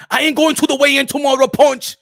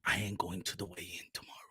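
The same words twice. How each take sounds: First: Put-on firm, raised African-accented boxer voice; emphatic boxer declaration; insistent repeat. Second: Put-on very low, very soft African-accented boxer; barely audible, grim boxer voice; ominous hushed confession. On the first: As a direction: insist on it to a doubting friend. Repeats it louder when questioned. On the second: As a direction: brood it quietly into the phone. First take, ominous low confession.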